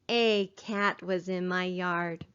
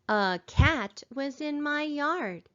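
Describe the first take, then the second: First: The opening 'a' is a full 'ay' sound. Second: The opening 'a' is a short weak schwa. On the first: The speaker calls it wrong. "It sounds a lot better than saying" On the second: The speaker calls it right. "we read like we talk, we need to remember to say"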